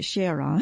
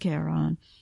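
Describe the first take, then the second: First: It uses the pronunciation given for the moon. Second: It uses the pronunciation given for the myth. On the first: It names the moon of Pluto. "for the moon they pronounce it Charon" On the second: It names the character from Greek mythology. "anytime it refers to the character in Greek mythology, it's pronounced Charon"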